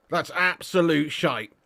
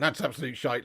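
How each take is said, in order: First: ABSOLUTE drawn out slowly and stressed; emphatic repeat. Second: Said in the usual way. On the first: Real, not acted. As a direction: lean hard and slow on "absolute".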